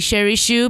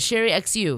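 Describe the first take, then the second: First: The surname is said as one syllable, shoe. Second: The surname is said as two letter names. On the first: This is the family's own pronunciation. The speaker calls it right. "it's weird for me to even say Sherry Shoe" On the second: This is how other people read the name. The speaker calls it wrong. "a lot of people always said Sherry X U"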